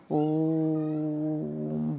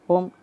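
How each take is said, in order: First: ओम held very long and slow, three beats; prolonged pluta ओम; drawn-out om. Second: ओम clipped quick, a single short beat. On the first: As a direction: stretch ओम out slowly like a chant. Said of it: "ओम बोलते हैं". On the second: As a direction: say ओम fast and short, the wrong way. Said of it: "ओम नहीं बोलते हैं ना". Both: Shown as a demonstration.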